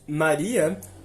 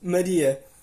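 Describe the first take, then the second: First: Brazilian Portuguese accent, unstressed first vowel kept open. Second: European Portuguese accent, unstressed first vowel closed. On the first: "no português brasileiro dizemos" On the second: "no português europeu dizemos Maria, com A fechado"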